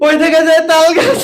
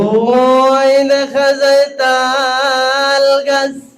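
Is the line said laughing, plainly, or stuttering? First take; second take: laughing; plainly. First: It is recited while breaking into laughter. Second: It is recited smoothly in a plain voice.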